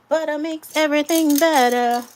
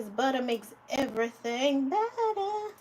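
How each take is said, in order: First: Belted out loud and high; sing-song proud declaration; loud catchphrase. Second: Said in the usual way. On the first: Real, not acted. Loud emphatic repeat of catchphrase.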